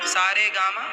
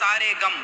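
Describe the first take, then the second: First: The syllables are said separately, like notes. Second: The syllables run together as two words. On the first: These are the musical notes. "ये देखो संगीत हो गया सा रे गा मा" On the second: It means all the sorrows. "अर्थ बदल देते हैं"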